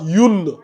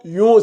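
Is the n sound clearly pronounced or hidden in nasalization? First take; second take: clear; hidden. First: The n sound is fully and clearly pronounced. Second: The n sound is hidden in a nasal hum. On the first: The speaker calls it wrong. "on ne prononce pas le un" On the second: The speaker calls it right. "On dit Youn, Youn. C'est ça, on appelle ça la dissimulation"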